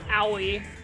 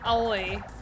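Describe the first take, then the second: First: The name is said as two syllables, 'ow-ee'. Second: The name is said with three separate vowels. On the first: The speaker calls it wrong. "no, that's not how you pronounce that" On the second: The speaker calls it right. "It's like Aoi"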